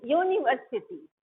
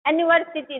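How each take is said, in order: First: यूनिवर्सिटी begun with a clear yoo sound; teacher models यूनिवर्सिटी starting with yoo. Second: यूनिवर्सिटी said with a plain vowel start, no y sound; teacher shows the wrong way to say यूनिवर्सिटी. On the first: Teacher modelling यूनिवर्सिटी for students, clear yoo start. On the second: Teacher contrasting यूनिवर्सिटी for students, vowel start. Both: Shown as a demonstration. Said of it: "यूनिवर्सिटी नहीं".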